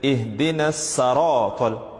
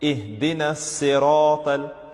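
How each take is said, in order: First: The vowel after the s is a. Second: The vowel after the s is i. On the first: The speaker calls it wrong. "saratal, that's wrong" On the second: The speaker calls it right. "The right way to read it is with a kasra over the letter sad"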